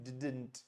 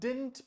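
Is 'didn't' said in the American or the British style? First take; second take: British; American. First: Both d sounds are kept, like 'did-nt'. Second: The middle d sound is dropped, like 'dint'. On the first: The speaker calls it wrong. "British style में" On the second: The speaker calls it right. "American style में"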